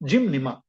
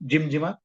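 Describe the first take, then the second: First: The second part begins with an N sound. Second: The second part begins with a J sound. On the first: The speaker calls it right. "Correct pronunciation is जिमनिमा" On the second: The speaker calls it wrong. "बहुत से लोग इसका pronunciation गलत बोलते हैं"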